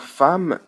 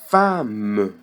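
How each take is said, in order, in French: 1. Le e muet final est supprimé. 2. Le e muet final est prononcé.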